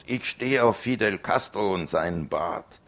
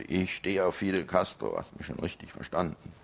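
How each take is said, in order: First: "Ich stehe auf Fidel Castro" yelled high and loud; loud defiant yell; bellowed provocation. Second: Said in the usual way. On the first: Acted. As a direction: shout it to provoke. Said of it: "ich brüllte drauf los". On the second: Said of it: "Ich sagte".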